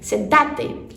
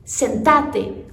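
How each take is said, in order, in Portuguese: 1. Fala-se do jeito do espanhol argentino. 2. Fala-se do jeito do espanhol argentino.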